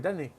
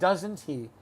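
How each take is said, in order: First: The words are reduced and run together quickly. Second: The words are said fully and separately. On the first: "this is what I hear, ... A lot of people say it this way" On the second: "Instead of"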